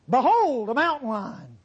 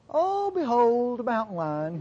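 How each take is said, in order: First: It is said with alarm and urgency. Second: It is said in a calm, offhand way.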